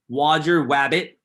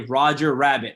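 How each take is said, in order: First: The second word begins with a W sound. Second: The second word begins with an R sound. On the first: "So you get a W" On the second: "if you say Roger Rabbit"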